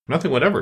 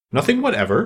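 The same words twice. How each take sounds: First: "Nothing whatever" closed with a falling tune; decisive falling answer on "Nothing whatever"; confirming statement. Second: "Nothing whatever" pitched up as a question; high, insistent questioning tune on "Nothing whatever"; persistent question. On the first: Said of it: "said Alice". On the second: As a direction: press for confirmation on "Nothing whatever", tune lifting. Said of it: "persisted the king". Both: A narrator's reading.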